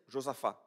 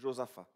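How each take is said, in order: First: The final t is sounded. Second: The final t is silent. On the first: "On prononce ce là à la fin de, en, en français" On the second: "en portugais, il n'y a pas de F à la fin"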